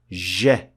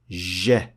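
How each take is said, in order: First: The consonant is a hissing sound that continues. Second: The consonant is a hissing sound that continues.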